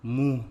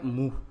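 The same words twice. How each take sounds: First: मुंह with the u through the nose; मुंह loud, its vowel nasalized. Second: मुंह with a purely oral u, no nasal; मुंह said as "mooh"; missing nasal. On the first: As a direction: put the chandrabindu nasal into मुंह. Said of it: "क्या होता है". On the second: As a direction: drop the chandrabindu nasal from मुंह. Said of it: "तो मुंह नहीं होता". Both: Shown as a demonstration.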